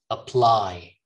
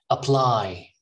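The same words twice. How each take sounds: No difference in how they are said.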